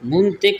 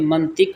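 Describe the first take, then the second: First: The first vowel sounds like 'u'. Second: The first vowel sounds like 'a'. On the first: The speaker calls it wrong. "नहीं होता" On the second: The speaker calls it right. "बल्कि मंतिक होता है"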